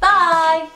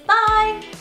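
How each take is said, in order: First: It is said in a lower pitch. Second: It is said in a very high pitch.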